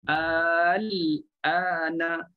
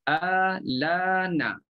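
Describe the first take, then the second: First: The L is silent, then a glottal stop begins 'ana'. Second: The L carries the vowel and links straight into 'ana'. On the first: This is the usual reading with the hamzah kept. "Kita kena kita baca matikan lam" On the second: This is the Warsh reading with the hamzah's vowel moved to the L. "Tapi Warash dia hidupkan lam"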